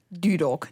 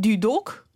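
First: The stress is on the first syllable. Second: The stress is on the second syllable. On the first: The speaker calls it right. "Gewoon Dudok" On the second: The speaker calls it wrong. "niet Dudok"

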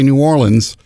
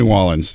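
First: It is said in a formal announcer style. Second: It is said in a natural local style. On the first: "that was me being an announcer" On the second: "I'd say New Orleans because I'm from New Orleans"

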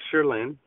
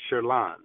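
First: The name is pronounced the English way. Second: The name is pronounced the French way. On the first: "the English pronunciation of it is Sherlin" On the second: "the French pronunciation is Sherlin"

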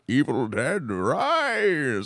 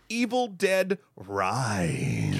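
First: It is said in a Bane impression. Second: It is said in his normal voice.

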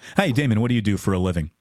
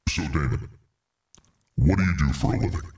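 First: The question is asked in a casual tone. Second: The question is asked in a formal tone.

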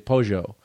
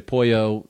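First: The double L has the Buenos Aires sound. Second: The double L has the usual sound. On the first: "They say pojo" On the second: "we would say pollo"

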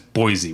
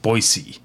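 First: The middle consonant is a buzzing Z sound. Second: The middle consonant is a hissing S sound. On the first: This is how people outside the place say it. "says Boise with a Z" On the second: This is how people who live there say it. "not a Z sound, an S sound"

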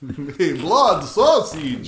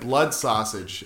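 First: It is said in a put-on vampire voice. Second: It is said in a normal voice.

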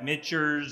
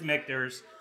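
First: The name is said with a strong German-like accent. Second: The name is said in a plain American accent. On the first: The speaker calls it wrong. "Some people use a strong like German accent" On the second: The speaker calls it right. "but it is Michter's"

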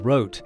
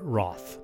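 First: The surname is pronounced the German way. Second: The surname is pronounced the American way. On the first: The family kept the original name from home. "Volker kept the German pronunciation of their name, which is" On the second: The name was adapted to how Americans read it. "Axel chose to go by"

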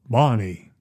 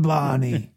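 First: The impression is in a deeper voice. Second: The impression is in a higher voice.

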